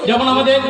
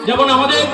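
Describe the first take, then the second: Both takes have the same delivery.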